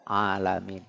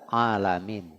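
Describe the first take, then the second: No difference in how they are said.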